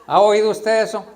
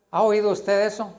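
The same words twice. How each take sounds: First: ¿Ha oído usted eso? repeated with more force; louder repeat. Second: Said in the usual way. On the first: Shown as a demonstration. Preacher pressing the congregation, louder insistent question.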